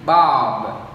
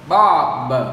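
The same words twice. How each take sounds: First: The final consonant is reduced and released softly. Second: The final consonant is released strongly and clearly. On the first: The speaker calls it right. "nó đọc nhẹ nhàng đi, đọc giảm đi" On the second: The speaker calls it wrong. "nhiều người đọc là bob, bob, ... các bạn bật rất là mạnh"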